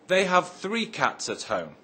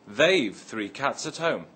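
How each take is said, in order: First: The words they have are said in full. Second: The words they have are contracted to they've.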